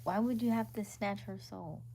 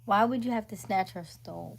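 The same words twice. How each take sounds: First: Said in the usual way. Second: "soul" slipped into "stole", with an added t; slip of the tongue. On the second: Real, not acted. Asking Dean about his remark, "soul" misspoken as "stole". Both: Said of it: "Where'd you get stole?".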